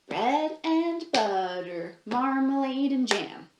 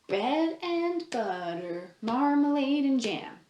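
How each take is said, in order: The two takes are said the same way.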